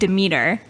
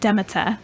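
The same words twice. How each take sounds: First: It is said the speaker's own usual way. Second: It is said the other speaker's different way. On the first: This is how the speaker's group says it. The speaker calls it wrong. "we pronounce it Demeter" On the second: This is how someone else says it. The speaker calls it right. "she would pronounce it Demeter, which was so much better sounding"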